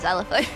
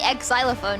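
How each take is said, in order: First: The word begins with a plain 'z' sound. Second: The word begins with an added 'eks' sound. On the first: The speaker calls it right. "I'd just say" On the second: The speaker calls it wrong. "I wouldn't say"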